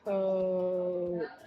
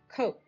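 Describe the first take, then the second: First: The word is stretched out slowly. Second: The word is said quickly as one unit. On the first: "Let's say it slowly first" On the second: "Now let's try it fast like a word"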